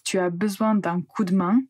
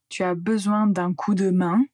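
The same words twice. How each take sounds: First: The 'de' is reduced almost to a t sound. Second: The 'de' is pronounced fully as a syllable. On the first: The speaker calls it right. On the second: The speaker calls it wrong.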